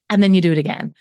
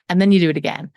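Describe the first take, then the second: No difference in how they are said.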